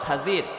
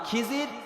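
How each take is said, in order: First: The first vowel is an 'a' sound. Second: The first vowel is an 'i' sound. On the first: This is the pure, correct form of the name. The speaker calls it right. "বিশুদ্ধ হলো খাজির। খয়ের উপরে জবর আছে" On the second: This is the commonly known form of the name. The speaker calls it wrong. "এটা হলো মানে মশহুর নাম"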